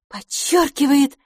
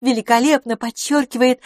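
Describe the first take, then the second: First: "подчёркивает" drawn out, high and louder; groping emphatic repeat. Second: Higher, louder, emphatic praise; admiring lady friend. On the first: Lady repeats herself, finding no better word, emphatic. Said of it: "не найдя нужного слова". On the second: Lady admiring her guest's outfit, admiring. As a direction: voice the lady, lifting "Великолепно подчёркивает". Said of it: "повторила она". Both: Acted.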